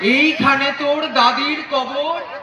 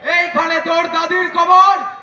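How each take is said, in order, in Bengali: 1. এটা শান্ত, আবেগভরা কাব্যিক ভঙ্গিতে আবৃত্তি করা হয়েছে। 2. এটা রাজনৈতিক জনসভার বক্তৃতার মতো জোরে চিৎকার করে বলা হয়েছে। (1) "খুবই সুন্দর, অসাধারণ করলেন" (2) "বক্তৃতা দিতে এসছেন"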